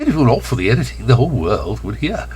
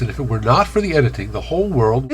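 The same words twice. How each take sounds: First: Louder, quicker slip into Bronx accent; slipping accent. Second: Said in the usual way. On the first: Shown as a demonstration. Speaker exposing unedited speech, in a slipped Bronx accent. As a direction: let the Bronx accent break through. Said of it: "where my accent slips". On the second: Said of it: "I can always edit out".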